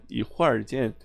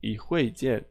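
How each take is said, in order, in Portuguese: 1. Um som com r é acrescentado dentro da frase. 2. A frase não tem som com r acrescentado. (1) "o pessoal mais lá do norte tem essa mania de botar ar" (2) "se você for no sul"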